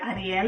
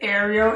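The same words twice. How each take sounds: First: The name is pronounced the Spanish way. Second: The name is pronounced the English way. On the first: "as I like Ariel in Spanish" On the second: "this is Ariel in English"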